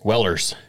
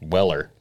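First: The name ends with an added s sound. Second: The name ends without an s sound. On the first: The speaker calls it wrong. "People like to pronounce it otherwise" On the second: The speaker calls it right. "there's no S, and it's not possessive either. It's just Weller"

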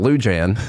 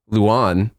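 First: The J is pronounced as a clear consonant. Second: The J is silent between the vowels. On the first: The speaker calls it wrong. "her name isn't Lou Jan" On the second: The speaker calls it right. "it has a silent J in it"

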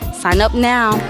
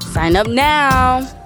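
First: It is said flatly, with little energy. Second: It is said with more energy and excitement. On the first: The speaker calls it wrong. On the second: The speaker calls it right.

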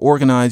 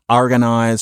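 First: The first vowel sounds like 'or'. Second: The first vowel sounds like 'ar'. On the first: The speaker is not from St. Louis. "for organize" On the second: The speaker is from St. Louis. "organize for organize"

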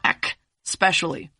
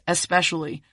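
First: The word begins with an 'ek' sound. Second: The word begins with an 'es' sound. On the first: The speaker calls it wrong. "not ek, specially" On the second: The speaker calls it right. "the word is especially"

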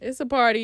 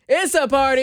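First: It is said flatly, with low energy. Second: It is said loudly, with high energy.

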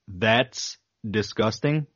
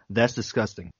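First: The phrase is said slowly and carefully. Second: The phrase is said quickly and runs together. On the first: The speaker calls it right. "I can say it if I go" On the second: The speaker calls it wrong. "But if I try to say it in a normal pace, like a normal human, it comes out"

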